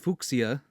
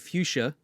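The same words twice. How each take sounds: First: It is pronounced the German way. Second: It is pronounced the American English way. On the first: "And in German, I'd probably say" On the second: "In American English, I would say"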